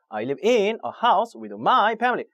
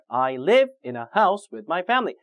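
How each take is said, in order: First: The small function words carry the stress. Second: The verb and nouns carry the stress. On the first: The speaker calls it wrong. "거꾸로" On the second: The speaker calls it right. "동사, 명사, 명사 이렇게 핵심적인 내용을 담고 있는 단어에다 강세 주셔야"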